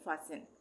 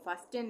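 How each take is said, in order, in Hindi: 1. बीच में t की आवाज़ साइलेंट है। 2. बीच में t की आवाज़ बोली जाती है। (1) "टी का उच्चारण नहीं होगा" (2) "फास्टेन नहीं पढ़ेंगे"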